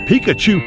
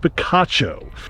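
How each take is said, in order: First: The name ends with an 'oo' sound. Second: The name ends with an 'oh' sound. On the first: The speaker calls it wrong. "I know that's not the way you pronounce it" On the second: The speaker calls it right. "It is Picacho"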